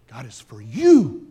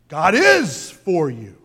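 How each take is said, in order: First: The stress falls on the word you. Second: The stress falls on the word is.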